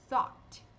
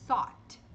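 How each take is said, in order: First: "thought" whispered, stopped t; whispered model. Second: "thought" with an open "aw" vowel. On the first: Teacher whispers the variant. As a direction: breathe "thought" out. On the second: Teacher shows the open accent version. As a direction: open the mouth wide for "thought". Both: Shown as a demonstration. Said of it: "mais aberto ou mais fechado".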